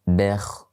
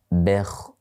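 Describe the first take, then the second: No difference in how they are said.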